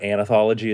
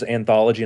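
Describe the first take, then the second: First: The word has an extra 'a' vowel sound. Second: The word has no extra 'a' vowel sound. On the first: The speaker calls it wrong. "not anthology, as I like to say" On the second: The speaker calls it right. "knowing how to pronounce it as anthology"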